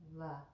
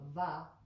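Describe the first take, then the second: First: The v sound is soft, with light friction. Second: The v sound is hard, with full friction. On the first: The speaker calls it right. "very soft" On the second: The speaker calls it wrong. "rather than va"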